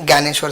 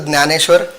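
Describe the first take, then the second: First: The name begins with a 'gy' sound. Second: The name begins with a 'dny' sound. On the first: This is an accepted everyday form with the same meaning. "you may call it Gyaneshwar" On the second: This is the name's proper form. "it is a Jnaneshwar"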